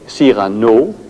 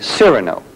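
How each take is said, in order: First: The name is said with a French pronunciation. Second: The name is said with an American pronunciation. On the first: "French would say Cyrano" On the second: "the Americans say Cyrano"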